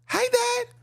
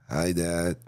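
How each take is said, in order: First: Put-on very high little-girl voice; tiny, high child greeting her father; little daughter. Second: Comically deep, low greeting; deep mock-masculine hello; daughter turned boy. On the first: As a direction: squeak it like a young daughter. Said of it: "Father come to the daughter". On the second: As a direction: drop it low like a voice changed by steroids. Daughter's voice dropped after steroids.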